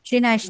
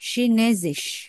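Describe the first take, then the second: First: The second syllable has an 'ai' vowel sound. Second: The second syllable has an 'e' vowel sound. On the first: The speaker calls it wrong. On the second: The speaker calls it right.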